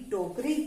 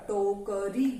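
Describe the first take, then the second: First: Said in the usual way. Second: टोकरी slowly split into टो-क-री; syllable by syllable. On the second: Shown as a demonstration. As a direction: sound out टोकरी, stretching each syllable. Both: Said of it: "इस तरह से जब आप इनको सही बोलोगे".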